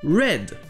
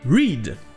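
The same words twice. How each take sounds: First: The vowel is short, like in 'red'. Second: The vowel is long, like in 'reed'. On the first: It is the past tense. "Ici, c'est le son E, red, comme la couleur rouge" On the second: It is the present tense. "la première prononciation de E A en anglais ... Ce sera I"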